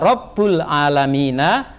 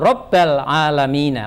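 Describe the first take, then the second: First: The first word ends with an u vowel. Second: The first word ends with an a vowel. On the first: "tidak dibaca" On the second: "tidak dibaca"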